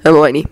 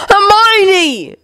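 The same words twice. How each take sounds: First: Voice cracking. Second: High, anguished scream, falling off at the end; screamed name. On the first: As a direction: say the name with a touch of grief. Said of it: "his voice cracking as he said the name". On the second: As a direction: scream for her in desperation. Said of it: "Ron screamed again". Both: A narrator's reading.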